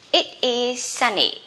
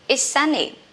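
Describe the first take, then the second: First: It and is are both said in full. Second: It is is contracted to one syllable.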